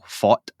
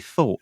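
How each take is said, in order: First: It is said with a Scottish accent. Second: It is said with a standard accent. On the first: The speaker calls it wrong. "going all Scottish there" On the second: The speaker calls it right. "use the correct pronunciation"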